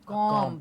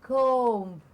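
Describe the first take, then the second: First: The vowel is not an O sound. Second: The vowel is an O sound. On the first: The speaker calls it wrong. "And not comb" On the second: The speaker calls it right. "Comb mein O sound aata hai"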